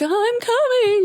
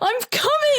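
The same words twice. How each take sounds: First: It is said in a cute, playful way. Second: It is said in an urgent, intense way.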